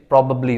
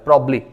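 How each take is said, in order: First: It is said with all its syllables. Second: It is shortened, with only one b syllable. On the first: This is the formal form. "फॉर्मल way में" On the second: This is the casual form heard in movies. "एक ही बी को पढ़ा जाता है"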